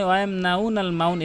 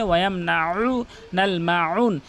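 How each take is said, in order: First: "ওয়ায়ামনাউনাল মাউন" quick, vowels gliding together; mistaken, ayn dropped. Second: Slow, drawn-out "ওয়ায়ামনাউনাল মাউন" with throaty ayn; correct ayn. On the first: Teacher warns against this, quick plain vowels. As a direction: say "মাউন" with no throat sound. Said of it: "এভাবে বলবেন না". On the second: Teacher gives correct form, slow throaty ayn. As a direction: squeeze mid-throat before each u of "ওয়ায়ামনাউনাল মাউন". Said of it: "বলবেন হচ্ছে". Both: Shown as a demonstration.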